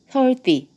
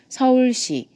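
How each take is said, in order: First: The last syllable starts with a t-like sound. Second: The last syllable starts with a clear s sound. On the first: The speaker calls it wrong. "혀 앞니보다 이 치아보다 앞에 있으면 안 돼요" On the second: The speaker calls it right. "뒤에 있어야 돼요"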